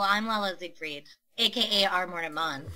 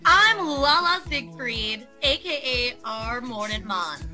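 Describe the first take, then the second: First: It is said in a plain, flat way. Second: It is said with happy passion.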